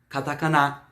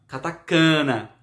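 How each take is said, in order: First: The stress is on the last syllable. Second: The stress is on the second-to-last syllable. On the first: The speaker calls it right. "com a tonicidade no final" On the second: The speaker calls it wrong. "com som de paroxítona"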